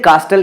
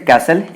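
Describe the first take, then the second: First: The t sound in the middle is pronounced. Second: The t sound in the middle is silent. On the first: The speaker calls it wrong. "पहले इसे अपन कास्टल पढ़ते थे" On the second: The speaker calls it right. "टी silent होता है actually"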